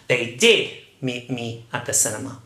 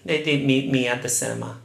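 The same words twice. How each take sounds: First: The word 'did' carries the main stress. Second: The word 'cinema' carries the main stress. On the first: The speaker calls it right. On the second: The speaker calls it wrong. "You cannot say"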